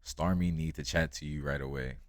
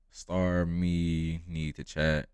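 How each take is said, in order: First: Light Jamaican patois at normal pace; Jamaican accent. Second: Slow, loud Jamaican patois; Jamaican accent. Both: Retold or imitated. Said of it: "He said in his thick Jamaican accent".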